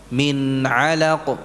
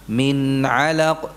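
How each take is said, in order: The two takes are said the same way.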